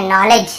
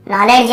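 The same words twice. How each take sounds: First: नॉलेज with no separate D; नॉलेज ending in a simple J sound; silent D. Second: नॉलेज misread with a D before the J; wrong D sounded. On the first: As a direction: say नॉलेज as "noll-ej". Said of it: "डी भी silent है". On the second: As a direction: say नॉलेज as "nolled-je". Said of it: "नॉलेज नहीं है". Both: Shown as a demonstration.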